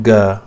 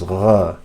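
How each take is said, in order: First: Ga with a plain hard g, no gargle; wrong hard g. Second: Gha gargled at the top of the throat; correct gha. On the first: Teacher warning learners off it, ga with a hard g. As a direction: say ga with a stopped g as in go. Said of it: "It's not ga". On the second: Teacher giving the actual pronunciation, throaty gargled gha. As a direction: scrape gha like a French r, without a hard g. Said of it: "The actual pronunciation is". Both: Shown as a demonstration.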